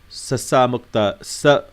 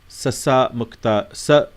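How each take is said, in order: Both takes have the same delivery.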